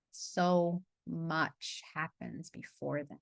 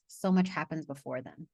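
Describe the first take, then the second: First: Very slow and softer, letting each word sink in; slow soft emphasis. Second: Said in the usual way. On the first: Shown as a demonstration. Coach repeating her point to the group, very slow and soft. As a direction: drag it out gently so it lands. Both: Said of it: "line repeated for emphasis".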